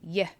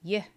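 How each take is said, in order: First: It is a soft y sound. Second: The same.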